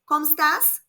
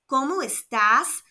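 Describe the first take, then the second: First: The phrase is said quickly and run together. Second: The phrase is said slowly and carefully.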